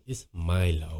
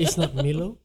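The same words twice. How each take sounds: First: Mock announcer "Milo", much lower and softer; very low imitation. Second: "Milo" as "MEE-lo", the rejected way; mimicking the clip. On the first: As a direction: drop "Milo" way down as "MY-lo". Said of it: "Very low". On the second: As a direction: set up the correction, "Milo" with an "ee". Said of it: "Macam dia mengejek gitu".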